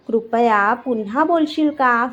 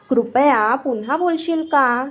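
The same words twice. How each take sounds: The two takes are said the same way.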